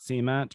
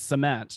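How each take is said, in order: First: It is said in a Southern American way. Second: It is said in a general American way. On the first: This is the form the speaker grew up saying. "not cement" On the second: This is the form the speaker has trained to use. "train myself to say it's cement"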